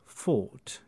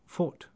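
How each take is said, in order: First: The vowel is held long and dark. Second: The vowel is shorter and slightly brighter. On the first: "So instead of thought" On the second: "it might be thought, ... just by shortening it a little bit, it brightens it"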